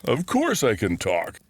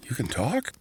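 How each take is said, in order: First: Smug, knowing reply with a grin; a grinning bear who is amused by the question; sly grin. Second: Amazed question. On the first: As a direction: sound pleased with yourself, smiling. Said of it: "the bear said with a sly grin". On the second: Orson amazed at talking bear. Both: Acted.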